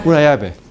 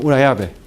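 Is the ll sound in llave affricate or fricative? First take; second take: fricative; fricative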